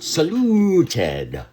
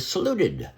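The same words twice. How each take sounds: First: The U vowel is held long before the T. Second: The U vowel is short, like normal speech. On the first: The speaker calls it wrong. "not saluted" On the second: The speaker calls it right. "in normal speech, I say saluted"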